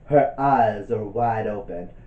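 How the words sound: It is read in a dramatic voice.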